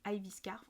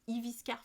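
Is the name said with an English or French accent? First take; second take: English; French. First: The name is said with an English accent. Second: The name is said with a French accent. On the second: "si vous le prononcez à la française"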